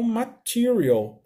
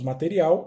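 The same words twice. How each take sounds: First: The word is pronounced with English sounds. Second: The word is pronounced with Portuguese sounds. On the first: "em inglês eles falam material" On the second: "Em português nós falamos material"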